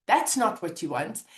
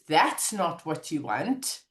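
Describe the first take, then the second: First: Said in the usual way. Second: Slow, low "That's not what you want"; calm slow mantra. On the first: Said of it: "or I can go". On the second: Shown as a demonstration. Reminding herself after terrible news, slow and low. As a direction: say it slowly like a reset. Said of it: "Just by saying the words".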